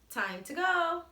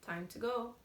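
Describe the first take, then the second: First: It is said in an excited tone. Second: It is said in a flat, plain tone.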